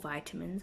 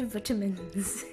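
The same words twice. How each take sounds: First: It is said in an American accent. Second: It is said in a South African accent. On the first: "as the Americans say" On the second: "I'm from South Africa, so we say vitamins"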